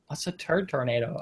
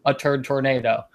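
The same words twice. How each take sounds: First: Lightly voiced Valley girl asking, rising at the end; a hint of a Valley girl, puzzled and rising. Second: Straight-faced. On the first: Newscaster asking the guest, a light Valley girl lilt. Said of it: "why she's a Valley girl now". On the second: Retold or imitated. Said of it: "Like, it was normal, straight-faced".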